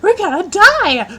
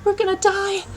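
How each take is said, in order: First: It is said in a cheerful, excited tone. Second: It is said in a gloomy, despairing tone.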